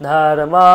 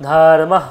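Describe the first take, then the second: The two takes are said the same way.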